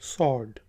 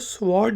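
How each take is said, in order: First: No w sound follows the s. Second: A w sound follows the s. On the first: The speaker calls it right. "आप सॉर्ड कहते हैं" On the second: The speaker calls it wrong. "आप कभी इसको स्वॉर्ड नहीं कहते"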